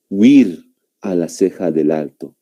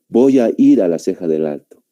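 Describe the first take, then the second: First: The opening collapses into the single syllable 'wir'. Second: The opening 'voy a ir' keeps separate syllables. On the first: Some other speakers use this reduced form. "Incluso otras personas pronuncian de esta manera" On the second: This is the common everyday pronunciation. "Así es como nosotros pronunciamos"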